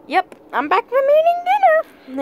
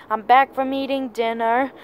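First: Much higher, sustained silly pitch. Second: Said in the usual way. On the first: Pretend. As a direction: say it way up high, playfully. Repeats line in a silly voice.

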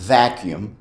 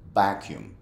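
First: Vacuum with a real V, lip on teeth; correct vacuum. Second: Vacuum as "bakjum", B start. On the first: Teacher models the correct vacuum. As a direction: start vacuum with a buzzing V. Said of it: "la manera correcta". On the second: Teacher mimics the Spanish-speaker vacuum. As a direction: open vacuum with a B, lips closed. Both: Shown as a demonstration.

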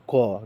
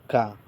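First: ক with a rounded "o" vowel; correct rounded KHO. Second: কা with an open "aa" vowel; common mistake KA. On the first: Teacher giving learners the pure form, ক as "kho". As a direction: say ক as "kho", keeping out the "aa". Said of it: "আমাদের কি বলতে হবে?". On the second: Teacher quoting the common mistake, কা with "aa". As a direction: say কা as many wrongly do, ending in "aa". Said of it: "অনেকে ককে কি বলে?". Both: Shown as a demonstration.

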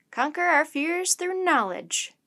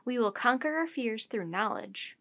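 First: Slow, high and loud, savouring a new motto; a professor's enthusiastic, drawn-out declaration. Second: Said in the usual way. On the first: A narrator's reading. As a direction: proclaim it grandly with rising enthusiasm. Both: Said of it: "repeated his thought with enthusiasm".

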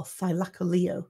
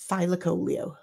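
First: Thylacoleo said as thigh-LACK-a-LEE-oh; documentary pronunciation. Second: Thylacoleo said as THIGH-la-COH-lee-oh; old pronunciation. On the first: Auctioneer offering the alternative, Thylacoleo with LEO stressed. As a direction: put the emphasis on LEO in Thylacoleo. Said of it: "It's always ended with Leo as the". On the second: Auctioneer offering his habitual pronunciation, Thylacoleo stressed on COH. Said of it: "whereas I used to do Thylacoleo". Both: Shown as a demonstration.

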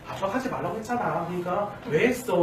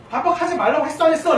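First: Gentle, toned-down chiding; soothing mild reproach. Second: High, loud scolding; annoyed dad. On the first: Mother calming the child after dad's outburst, gently reproachful. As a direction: coax the child while slightly scolding. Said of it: "라고 달래지만 약간 책망하는 말투". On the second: Father telling off his child, loud and irritated. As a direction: snap in exasperation, voice raised. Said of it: "라고 짜증냈을 때". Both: Acted.

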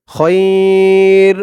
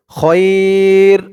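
First: খয়র with the vowel stretched by one alif; correct pronunciation. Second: খয়র said short, without the long alif stretch; wrong pronunciation. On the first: Teacher showing the right long-vowel way to say খয়র. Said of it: "মদ্দে লিন একালিফ টান হবে". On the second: Teacher showing the wrong way to say খয়র. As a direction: clip the vowel in খয়র, no drawn-out alif. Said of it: "খয়র বলা যাবে না". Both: Shown as a demonstration.

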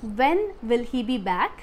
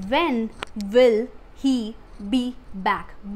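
First: Said in the usual way. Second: Very slow, every word set apart. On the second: Shown as a demonstration. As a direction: dictate it to learners, pausing after each word. Teacher repeats word by word for learners. (एक-एक शब्द अलग करके, बहुत धीरे)

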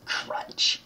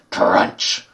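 First: Soft whispered crunch noise; a timid little "Crunch"; weak crunch. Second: Louder whispered crunch noise; stronger crunch. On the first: Gamer faking the lollipop bite, whispered and weak. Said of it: "That was a very weak crunch". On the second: Gamer redoing the lollipop bite, louder and whispered. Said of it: "Let me try that again". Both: Shown as a demonstration.

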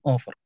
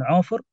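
First: أوفر opening on a glottal stop; ayn turned to hamza. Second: عوفر with a throaty ayn at the start; pronounced with ayn. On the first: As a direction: start أوفر with a hamza in place of the throaty ayn. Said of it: "يعني بإبدال العين همزة". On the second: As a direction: begin عوفر on a voiced pharyngeal ع, not a glottal stop. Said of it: "ينطقون بالعين يكون". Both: Shown as a demonstration.

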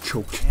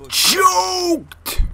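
First: Said in the usual way. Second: High, loud, stretched CHOKED; drawn-out yell. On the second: Real, not acted. Gamer reacting to a choked shot, drawn-out yell.

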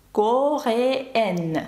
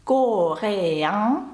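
First: "Кореен" in French, ending EN with a full N; non-nasal ending. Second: "Кореян" in French, ending on a nasal vowel, rising. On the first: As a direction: sound the final N of "Кореен", falling tune. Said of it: "другий не носовий". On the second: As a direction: let "Кореян" end in the nose, no sounded N. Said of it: "Перший носовий". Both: Shown as a demonstration.

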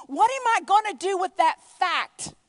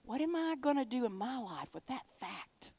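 First: Loud, high, punched out word by word; emphatic, raised preaching voice; urgent question. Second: Softer, subdued and deliberate; hushed, personal restatement; reflective question. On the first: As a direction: cry out the question with force. Preacher voicing Saul's urgent question. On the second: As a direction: ask it quietly of yourself. Same question repeated softly, personally. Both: Acted.

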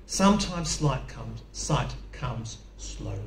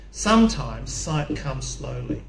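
First: "Sometimes sight comes slowly" drawn out slowly, fading almost to a whisper; slow and weak, fading to breath. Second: Weak, slow voice, drawn out. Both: Real, not acted. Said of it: "my voice is weak today".

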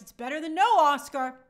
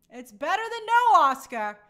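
First: Leaning on "no" to make the point; stress on no. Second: "no" louder still, then falling; stronger stress on no. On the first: Host tells viewers an honorary award still counts, leaning on "no". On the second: Host repeats her point, hammering "no" louder. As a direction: repeat it, landing harder on "no". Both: Real, not acted.

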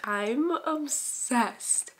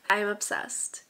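First: Stretched very slow with higher pitch; gushing, drawn out. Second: Said in the usual way. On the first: Real, not acted. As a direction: linger on each word like a besotted fan. Gushing repeat about the book.

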